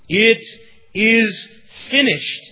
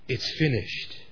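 First: It is cried out in a loud voice. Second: It is said quietly in a somber tone. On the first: It is a cry of triumph. The speaker calls it right. "he probably cried out with a loud voice" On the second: It sounds like resignation or defeat. The speaker calls it wrong. "in a somber tone, so that no one could hear him"

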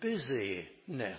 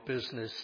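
First: The word is said with three syllables. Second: The word is said with two syllables. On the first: It refers to being busy. The speaker calls it right. "if we pronounce it differently, you get the sense of the word" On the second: It refers to commerce. The speaker calls it wrong. "with business in the sense of commerce"

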